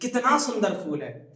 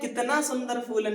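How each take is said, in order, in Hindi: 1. इसे उत्साहित आश्चर्य के साथ कहा गया है। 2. इसे सीधे प्रश्न की तरह पूछा गया है। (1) "टोन में एक्साइटमेंट होना चाहिए, टोन चेंज होनी चाहिए, आश्चर्य वाली" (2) "नहीं"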